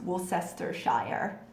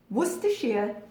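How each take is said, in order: First: Every spelled syllable of the word is pronounced. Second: The word is said in short, reduced syllables. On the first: The speaker calls it wrong. "it looks like it should be pronounced Worcestershire, which is how I hear it mutilated most often" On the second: The speaker calls it right. "Worcestershire is how you pronounce that"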